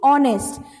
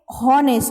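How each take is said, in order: First: The word begins with a vowel, no H. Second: The word begins with an audible H sound. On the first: The speaker calls it right. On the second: The speaker calls it wrong.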